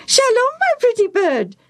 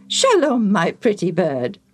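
First: High squawking parrot echo. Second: Said in the usual way. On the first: Acted. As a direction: mimic it back as a parrot, much higher and louder. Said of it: "the parrot repeated".

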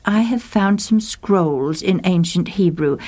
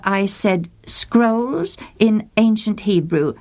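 First: Said in the usual way. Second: "scrolls" leaned on, the whole line said slowly; slow repeat for emphasis. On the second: Acted. Monk repeating himself to the scholar, slow and deliberate. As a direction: spell it out slowly for a bad phone line.

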